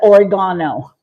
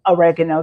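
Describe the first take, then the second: First: It is said the non-American way. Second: It is said the American way. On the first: "Everybody else in the world calls it oregano" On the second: "We call it oregano, the Americans"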